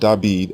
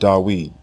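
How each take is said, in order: First: The name is said as David. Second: The name is said as Dawid. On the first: "The king's name is not David" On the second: "It is not Dawid"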